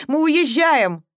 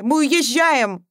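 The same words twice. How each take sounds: First: Higher, louder final order; mother announces they are leaving; higher, louder decisive order; firm declaration. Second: Higher, louder, very slow, every word hammered; mother overriding all objections; higher, louder, drawn-out final word; emphatic insistence. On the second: Mother repeats, more insistent. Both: A narrator's reading.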